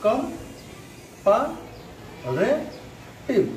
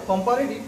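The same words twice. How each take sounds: First: comparative very slowly in four separate beats; slow teacher's syllable breakdown. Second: Said in the usual way. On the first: Shown as a demonstration. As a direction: draw out each syllable, pause between. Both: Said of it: "syllable হিসাবে লিখি".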